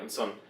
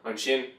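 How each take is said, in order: First: The consonant is pronounced as 's'. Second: The consonant is pronounced as 'sh'. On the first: This is the Munster dialect form. "say on sun" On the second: This is the standard form. "instead of saying on shin"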